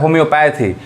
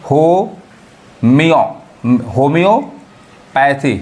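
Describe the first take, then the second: First: Said in the usual way. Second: Very slow homeo in parts, then homeopathy split before "pathy"; drawn-out teaching breakdown of homeopathy; syllable by syllable. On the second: Shown as a demonstration. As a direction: break homeopathy up with pauses, lifting after "homiyo". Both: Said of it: "ईओ sound पढ़ाता है".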